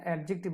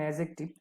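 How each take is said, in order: First: "অ্যাডজেক্টিভ" with a j sound, quickly shown as the mistake; softly cite the faulty "অ্যাডজেক্টিভ", ad-jik-tiv; mispronunciation demo. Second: "অ্যাডজেক্টিভ" corrected softly to ae-jek-tiv; corrected pronunciation. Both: Shown as a demonstration. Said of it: "অ্যাডজেক্টিভ না".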